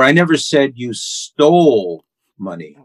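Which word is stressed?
stole. The stress is on the word stole.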